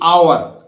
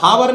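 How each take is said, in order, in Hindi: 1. यह शब्द स्वर से शुरू होता है, h नहीं है। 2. यह शब्द साफ़ सुनाई देने वाली h की आवाज़ से शुरू होता है। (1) "ये आवर" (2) "हावर नहीं बोलेगा"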